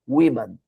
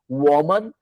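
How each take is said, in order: First: It is pronounced differently from the singular form. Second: It is pronounced exactly like the singular form. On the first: "essa outra pronúncia" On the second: "Igual o singular"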